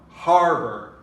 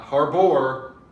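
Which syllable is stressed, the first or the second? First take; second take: first; second. First: The stress is on the first syllable. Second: The stress is on the second syllable. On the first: The speaker calls it right. "we're going to stress on the har" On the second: The speaker calls it wrong. "not harbor"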